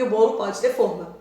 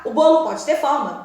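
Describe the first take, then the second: First: Forma with a closed o: FÔR-ma. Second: Forma with an open o: FÓR-ma. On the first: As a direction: round the first vowel of forma. (forma com o fechado, fôrma) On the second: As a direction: open the first vowel of forma. (forma com o aberto, fórma) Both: Shown as a demonstration. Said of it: "o contexto pode prejudicar".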